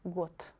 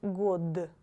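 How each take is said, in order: First: The final consonant is a voiceless t. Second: The final consonant is a voiced d. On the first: The speaker calls it right. "you should read it like got" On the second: The speaker calls it wrong. "not god"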